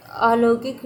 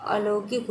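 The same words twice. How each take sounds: First: "अलौकिक" with long opening aa; wrong form demonstrated. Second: "अलौकिक" with short opening a; correct form demonstrated. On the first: Teacher rejecting misspelling, "अलौकिक" with stretched first vowel. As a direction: say "अलौकिक" as aa-lau-kik. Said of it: "नहीं होता है". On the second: Teacher giving right spelling, "अलौकिक" with short first vowel. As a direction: say "अलौकिक" as a-lau-kik. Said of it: "होता है". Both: Shown as a demonstration.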